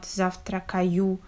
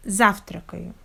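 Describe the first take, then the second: First: Завтракаю with every vowel fully pronounced, ЗАВ-ТРА-КА-Ю; завтракаю sounded out evenly, no vowel reduced; over-clear vowels. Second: Завтракаю stressed on ЗАВ, later vowels reduced; завтракаю with one strong first syllable and blurred unstressed vowels. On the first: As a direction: give each syllable of завтракаю its full vowel. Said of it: "clear pronunciation of vowels". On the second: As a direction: hit ЗАВ, then run lightly through the rest of завтракаю. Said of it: "stress on the first syllable". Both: Shown as a demonstration.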